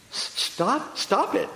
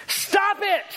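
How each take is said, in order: First: Halting, higher puzzled question; timid, confused patient; baffled echo. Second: High-pitched exasperated yell; sudden high holler of a fed-up therapist; retold yell. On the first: Retold or imitated. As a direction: echo it back, not understanding. Baffled patient echoes the therapist. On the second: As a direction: yell it in her face. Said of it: "he just yells in her face".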